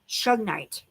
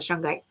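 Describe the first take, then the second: First: The middle sounds like a g followed by n. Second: The middle sounds like ng followed by g. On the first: The speaker calls it right. "It's actually shugnite" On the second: The speaker calls it wrong. "I always call it shungite. I know I say it the wrong way"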